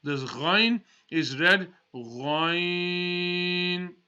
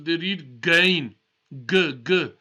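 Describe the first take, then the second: First: Ghain said slowly with a full-mouth throat gh; right Ghain from the throat; correct Ghain. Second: Gain with a plain hard G, louder; wrong hard G. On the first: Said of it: "Full mouth". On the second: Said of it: "is the wrong sound". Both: Shown as a demonstration.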